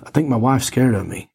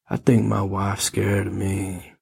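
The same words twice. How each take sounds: First: It is said in a plain, unthreatening way. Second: It is said in a menacing, threatening way.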